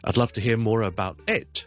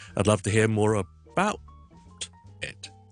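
First: The pitch change falls on the word it. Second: The pitch change falls on the word about. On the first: "我哋語調唔會喺呢一度轉變，所以我哋唔會講成咧" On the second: "所以咧，我哋唔会咧"

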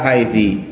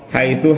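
First: The word ends in an i vowel. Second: The word ends in an u vowel. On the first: "boleh mabni atas kasri" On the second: "mabninya atas dhamm"

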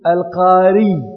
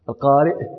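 First: It ends with a doubled, lengthened y sound. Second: It ends with a glottal stop after the vowel. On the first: The person belongs to the tribe of al-Qara. The speaker calls it wrong. "ولا يمكنكم أن تقولوا القاري بشديد الياء" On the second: The word is a reader, from reading. The speaker calls it right. "ويمكنكم أن تقولوا القارئ"

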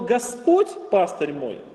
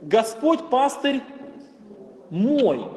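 First: The first word carries the main stress. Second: The last word carries the main stress. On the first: It stresses who exactly the shepherd is. "то мы говорим о том, кто именно является нашим пастырем" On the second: It stresses that he is the speaker's own shepherd. "Господь не чей-то пастырь, да? ... Он именно мой пастырь"

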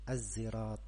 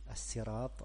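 First: The word starts with a z sound. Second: The word starts with a plain s sound. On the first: "bisa dibaca dengan zai" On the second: "bisa dibaca dengan sin"

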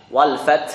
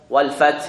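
Both takes have the same delivery.

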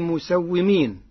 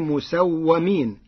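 First: The vowel after the 'w' sound is 'i'. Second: The vowel after the 'w' sound is 'a'. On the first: The angels are the ones doing the marking. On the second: The angels were marked by someone else.

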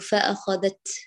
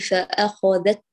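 First: The final t lets the sound keep running. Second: The final t stops the sound completely. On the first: The speaker calls it wrong. "لا نقول فأخذت، أخذت، أين الصوت؟ بيجري معك" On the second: The speaker calls it right. "التاء الشديد لا بد أن تقطع الصوت بكمال انحباسه"

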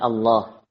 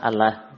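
First: The L sound is heavy and thick. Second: The L sound is light and thin. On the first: "ditafhim, ditebalkan jadi Allah" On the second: "asalnya tulisannya adalah Allah"

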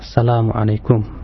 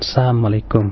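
First: The syllable 'la' is clearly pronounced. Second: The syllable 'la' is dropped or blurred. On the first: It wishes peace upon the listener. The speaker calls it right. "untuk mengucapkan salam dengan tepatnya" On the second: It wishes destruction upon the listener. The speaker calls it wrong. "bukan Assalamualaikum. Sebab kalau Assalamualaikum artinya jadi kebinasaan buat kamu"

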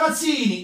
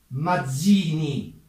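First: The name is said in Neapolitan pronunciation. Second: The name is said in standard Italian pronunciation. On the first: The speaker calls it right. "A Napoli siete la piazza Mazzini! ... suona meglio" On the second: The speaker calls it wrong. "in italiano sto nome si pronuncia Mazzini"

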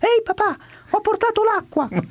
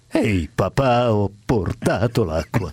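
First: It is said in a light, childlike voice. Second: It is said in a deep, booming voice. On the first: The speaker calls it wrong. "con la mia voce da bambino" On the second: The speaker calls it right. "dica come me"

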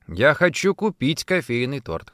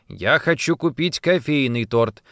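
First: The stress is on the word купить. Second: The stress is on the word кофейный. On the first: The cake is to be bought, not baked or received. "«Хочу купить», а не испечь или получить в подарок" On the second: A coffee cake is wanted, not another flavour. "«Кофейный», а не лимонный или клубничный"

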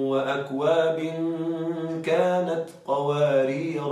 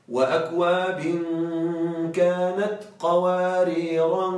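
First: Qawarir ends without an added -an ending. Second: Qawarir ends with an added -an ending. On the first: This follows the Hafs reading. "بدون تنوين" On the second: This follows another reading. "في غير حفص بالتنوين"

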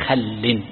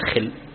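First: The first vowel is a, as in khall. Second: The first vowel is i, as in khill. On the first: The speaker calls it right. "بفتح الخاء بثنية خل" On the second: The speaker calls it wrong. "ولكنه ليست خل"

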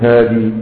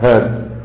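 First: The word ends with a long ee vowel. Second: The word ends on the consonant d. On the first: This follows a less common reading tradition. "الوقف عليه بإثبات الياء كقراءة ابن كثير" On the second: This follows the most common usage. "اللغة المشهورة عدم إثبات الياء"

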